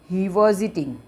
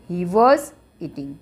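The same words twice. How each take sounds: First: Said in the usual way. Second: Each word drawn out slowly for writing; slow dictation pace for students. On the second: Shown as a demonstration.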